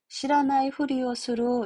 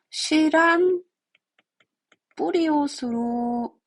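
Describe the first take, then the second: First: Every syllable is said, with an f-sound before 'uri'. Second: 'Nai' shrinks to 'n', with a p-sound before 'uri'. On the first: The speaker calls it wrong. "이렇게 들어가야 돼요" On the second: The speaker calls it right. "이렇게 발음을 해버리는 거예요"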